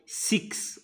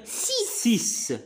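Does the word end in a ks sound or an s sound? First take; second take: ks sound; s sound. First: The x is not said as a plain s. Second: The x is said as a plain s. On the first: The speaker calls it wrong. "on ne va pas dire six" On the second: The speaker calls it right. "X parfois se prononce ... comme S ... on va dire six"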